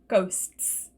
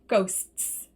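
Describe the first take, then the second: No difference in how they are said.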